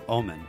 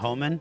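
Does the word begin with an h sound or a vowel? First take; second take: vowel; h sound. First: The word begins directly with a vowel. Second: The word begins with an h sound. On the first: The speaker calls it right. "drop the H" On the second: The speaker calls it wrong. "did I say it wrong?"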